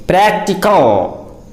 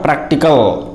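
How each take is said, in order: First: PRACTICAL very slow, with the a of cat; correct pronunciation. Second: PRACTICAL with a back a, quicker; mispronunciation. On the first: Teacher corrects learners, practical slowly pronounced with cat vowel. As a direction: stretch out PRACTICAL as "PRAK-ti-kul", cat vowel. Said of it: "It is simply practical". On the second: Teacher rejects practical mispronounced "PRAHK-ti-kal". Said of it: "not practical". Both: Shown as a demonstration.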